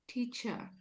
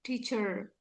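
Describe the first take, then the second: First: The final r sound is dropped. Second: The final r sound is clearly pronounced. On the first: "British people would say ... They don't pronounce ra sound" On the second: "the American people will say teacher. They will they stress in ra sound"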